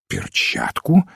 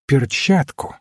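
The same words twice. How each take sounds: First: ПЕРЧАТКУ slow and very low, ending on a rise; questioning echo. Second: Said in the usual way. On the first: A narrator's reading. Detective queries the priest's answer, ПЕРЧАТКУ as rising question. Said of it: "переспросил тот".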